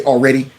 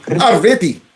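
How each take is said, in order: First: Said in the usual way. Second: "Already" as "avrety" in mock Indian accent; mimicked Indian accent. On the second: Host echoing congressman's "Already", mock Indian accent. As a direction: say "Already" with a v-sound and hard t, imitating an Indian accent. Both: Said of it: "he was trying to say already".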